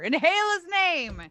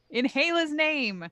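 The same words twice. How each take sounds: First: The phrase is said at a loud volume. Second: The phrase is said at a normal volume. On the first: "This time I say it louder" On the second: "Once again"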